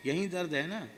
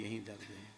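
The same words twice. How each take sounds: First: Guru's question. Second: Softer and lower humble answer; humble reply. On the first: Guru touches the sore spot. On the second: Disciple answers the guru about his pain, meek and soft. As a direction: answer meekly, almost under the breath. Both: Retold or imitated.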